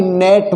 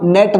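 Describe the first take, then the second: First: नेट with the 'e' dragged long; wrongly lengthened vowel. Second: नेट with a short, quick 'e'; short vowel. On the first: Teacher shows what not to say, long vowel. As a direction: stretch the vowel in नेट as a mistake. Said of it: "ना कि नेट बोलेंगे". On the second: Teacher shows students the correct net, short vowel. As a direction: keep the vowel in नेट brief. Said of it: "लेकिन छोटा उच्चारण हो रहा है". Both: Shown as a demonstration.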